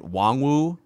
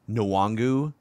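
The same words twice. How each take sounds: First: The opening N sound is soft and light. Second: The opening N sound is full and distinct. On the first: "Like it's a soft N" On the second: "I've also heard it"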